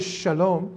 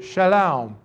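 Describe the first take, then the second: First: It is said in a plain standard accent. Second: It is said in a drawled regional accent. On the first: This is how the people would not say it. "They wouldn't say shalom" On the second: This is how the people from the region would say it. "They would say shalom"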